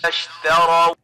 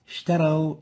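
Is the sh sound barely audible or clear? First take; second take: clear; barely audible. First: The sh sound is clear and fully audible. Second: The sh sound is weak and barely audible. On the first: The speaker calls it right. "the right way of pronouncing it is" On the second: The speaker calls it wrong. "So we barely can hear the sheen"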